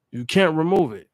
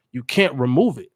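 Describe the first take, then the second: First: Can't hit hard, remove light; can't carries the weight; stress on can't. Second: Remove leaned on, can't light; stress on remove. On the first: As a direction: punch the word can't. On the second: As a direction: land on the word remove. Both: Shown as a demonstration.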